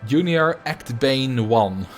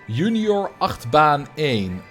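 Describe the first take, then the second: First: It is said with an American accent. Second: It is said with a Dutch accent.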